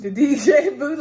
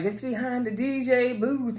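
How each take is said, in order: First: Higher and louder, laughing at D J booth; amused echo of D J booth; laughing repeat. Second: Slow, lightly voiced Uncle Clifford line; a hint of Clifford, drawn out; mildly imitating Clifford saying D J booth; quoting Uncle Clifford. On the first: Real, not acted. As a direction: laugh it out in disbelief. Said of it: "he don't understand that". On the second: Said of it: "Uncle Clifford's like".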